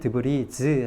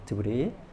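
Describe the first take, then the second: First: The word ends with an added z sound. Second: The word ends on a vowel, no final z. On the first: It refers to several pieces. "복수형이 되면 드브리즈 하고 발음을 해주셔야 돼요" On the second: It refers to a single piece. "단수일 때는 발음을 하지 않아요. 그래서 드브리라고만 발음을 하고요"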